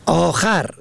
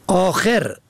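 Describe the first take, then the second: First: آخر ending in "-khar", short "a"; fatha on second. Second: آخر ending in "-kher", short "e"; kasra on second. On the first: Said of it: "به فتح دوم". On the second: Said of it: "به کسر دوم". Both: Shown as a demonstration.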